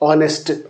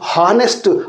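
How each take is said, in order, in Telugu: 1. ఈ పదం ఒక అచ్చుతో మొదలవుతుంది, h లేదు. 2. ఈ పదం వినిపించే h ధ్వనితో మొదలవుతుంది. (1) "హెచ్ యొక్క ప్రొనౌన్సియేషన్ సైలెంట్గా ఉంటుందమ్మా" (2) "హెచ్ని కూడా ఇక్కడ ప్రొనౌన్స్ చేస్తారు"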